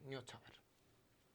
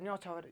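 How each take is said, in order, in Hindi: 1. यह शब्द नरमी से और हल्के से बोला जाता है। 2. यह शब्द भारी ज़ोर के साथ बोला जाता है। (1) "हल्का हल्का" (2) "इतो जोर नहीं देना है"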